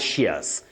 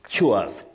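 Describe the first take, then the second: First: The syllable begins with a 'sh' sound. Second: The syllable begins with a 'ch' sound. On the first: The speaker calls it wrong. "Not shears" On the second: The speaker calls it right.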